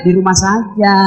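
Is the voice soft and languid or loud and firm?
soft languid. It is said softly and languidly.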